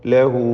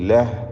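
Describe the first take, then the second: First: The word ends in a long, drawn-out u. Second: The word ends on the consonant h. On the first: The reciter joins it to the next words. "ചേർത്ത് ഓതുകയാണെങ്കിൽ ... നാലോ അഞ്ചോ ഹറക്കത്തിൻ്റെ അളവിൽ ദീർഘിപ്പിക്കൽ" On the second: The reciter stops after this word. "വഖഫ് ചെയ്യുമ്പോൾ സുക്കൂൻ നൽകി ലഹ് എന്ന് വഖഫ് ചെയ്യുക"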